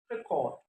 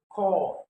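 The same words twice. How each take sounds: First: "record" said as a noun, stressed on the first syllable; front-stress "record" as the noun. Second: "core" drawn out and louder as the stressed syllable; verb stress. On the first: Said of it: "as a noun". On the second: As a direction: land hard on "core", the verb's second syllable. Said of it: "as a verb". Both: Shown as a demonstration.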